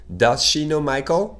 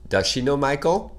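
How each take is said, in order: Both takes have the same delivery.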